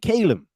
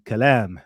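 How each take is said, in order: First: The name is said with an American pronunciation. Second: The name is said with an Arabic pronunciation. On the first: The speaker is from the American audience. "My American audience will say Calum" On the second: The speaker is an Arabic speaker. "my Arabic speakers will be Kalam"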